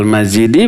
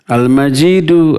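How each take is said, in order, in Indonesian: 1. Kata ini diakhiri vokal 'i'. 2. Kata ini diakhiri vokal 'u'. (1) "Tidak dibaca dzul arsyil majidi, tidak" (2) "dibaca rafa, dibaca u, bukan dibaca i"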